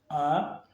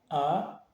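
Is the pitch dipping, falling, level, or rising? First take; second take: rising; rising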